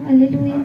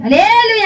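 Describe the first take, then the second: First: The energy drops off before the word ends. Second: The energy stays strong through the final syllable. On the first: The speaker calls it wrong. "అటు చెప్పకూడదు" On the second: The speaker calls it right. "హల్లెలూయా అనాలి"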